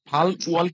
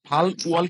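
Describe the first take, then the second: First: The middle consonant is an L, split apart. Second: The same.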